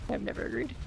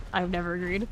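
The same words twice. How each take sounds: First: Muttered whisper aside; whispered repeat. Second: Said in the usual way. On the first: Real, not acted. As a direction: whisper it to yourself. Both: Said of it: "repeated as whisper".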